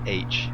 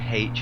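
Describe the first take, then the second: First: The letter name is said the American way. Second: The letter name is said the Irish way. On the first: This is how Americans say it. "instead of H because I'm I'm not American" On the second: This is how the speaker says it. "I say H"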